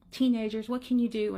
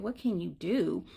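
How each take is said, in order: First: Lightly acted exasperated sigh of a mother. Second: Slow, low echo of the question; knowing echo. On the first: Mother lamenting her son to a stranger, mildly exasperated. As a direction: imitate a fed-up mom. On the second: Retold or imitated. Stranger about to advise the mother, slow knowing echo. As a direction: hand the question back, drawn out. Echoes the mother before giving advice.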